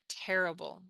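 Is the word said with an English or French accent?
English. The word is said with an English accent. The speaker calls it right.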